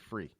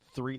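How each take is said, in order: First: The word begins with an F sound. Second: The word begins with a TH sound. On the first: "they say free" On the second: "T H, three"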